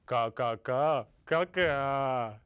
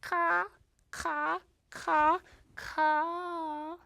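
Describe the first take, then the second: First: Low crow caws; Papa Crow. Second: High-pitched, spaced-out caws; Mama Crow. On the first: Father crow answering his mate, low cawing. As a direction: caw back in a lowered voice. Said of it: "And Papa Crow said". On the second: Mother crow to her mate after his trick, high caws. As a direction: caw high, one call at a time. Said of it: "She looked at him and she said". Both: A narrator's reading.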